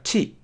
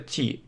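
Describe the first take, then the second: First: An English t with the tongue raised to the ridge. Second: A Russian t with the tongue kept low. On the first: The speaker calls it right. "Но это не так" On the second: The speaker calls it wrong. "А если русскоязычные говорят, то просто Ти"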